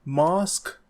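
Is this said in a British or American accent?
British. The vowel is a long British 'ah'.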